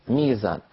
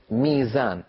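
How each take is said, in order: Both takes have the same delivery.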